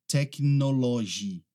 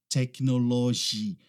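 No difference in how they are said.

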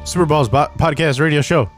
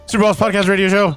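First: It is said at a normal pace. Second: It is said fast.

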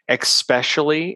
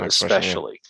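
First: The word begins with an 'ex' sound. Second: The word begins with an 'es' sound. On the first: The speaker calls it wrong. "the other one is especially instead of" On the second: The speaker calls it right. "instead of especially"

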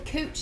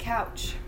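First: The vowel is an 'oo' sound. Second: The vowel is an 'ow' sound. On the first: Someone else said it this odd way. The speaker calls it wrong. "he said cooch instead of couch" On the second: This is the usual way to say it. The speaker calls it right. "instead of couch"

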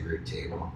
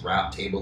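First: The word 'route' is said the non-American way. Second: The word 'route' is said the American way. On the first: The speaker calls it wrong. "Outside the U.S., they say root table. So they're wrong" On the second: The speaker calls it right. "Webster's defined it as route table, like that's the way you say it"

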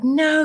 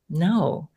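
First: The word is said loudly and urgently. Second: The word is said softly and calmly. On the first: It is the anxious voice of the head. "the head voice is like, no, you can't. It's really loud" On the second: It is the voice of intuition. "it's calmer. It's softer"

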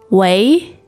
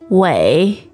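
First: The pitch rises from mid to high. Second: The pitch dips low, then rises.

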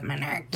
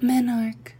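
First: The word ends with an extra final syllable. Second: The word ends like 'monarch', without extra syllable. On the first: "Instead of menarchy" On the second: "a little closer to like a monarch butterfly pronunciation"

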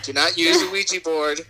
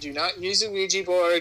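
First: It is said loudly. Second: It is said at normal volume.

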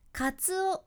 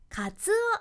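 First: The pitch stays mostly flat. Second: The pitch rises and falls clearly. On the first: The speaker calls it wrong. "カツオやなくって" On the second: The speaker calls it right. "しっかり音の高低差をつける"

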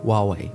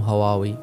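First: The word begins without an h sound. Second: The word begins with an h sound. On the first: "مثل ما الأجانب يقولون واوي، ما ينطقون الها" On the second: "مو هواوي"

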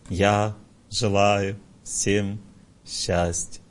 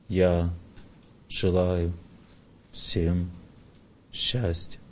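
First: It is said with happiness in the voice. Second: It is said reverently, recalling a holy place.

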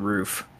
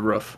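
First: The vowel in roof is drawn out long. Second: The vowel in roof is short and clipped. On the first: The speaker calls it wrong. "It is not the roof. That takes too long to say" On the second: The speaker calls it right. "It is the roof"

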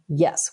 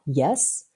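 First: The pitch falls on the word. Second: The pitch rises on the word.

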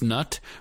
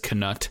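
First: The word starts with an N sound. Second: The word starts with a K sound. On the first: "she agrees it should be pronounced nut" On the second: "he sort of says knut when he does the audiobook"

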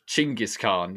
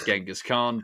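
First: The first name starts with a ch sound. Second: The first name starts with a soft j sound. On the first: This is closer to the original form of the name. The speaker calls it right. "is the more correct pronunciation" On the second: This is the commonly used form of the name. The speaker calls it wrong. "Everyone says Genghis Khan"

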